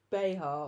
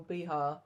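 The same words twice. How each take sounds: First: Behar said BAY-har, no final r. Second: Behar said bee-HAR with an r. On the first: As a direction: say Behar with BAY, first syllable. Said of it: "or Behar". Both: Shown as a demonstration.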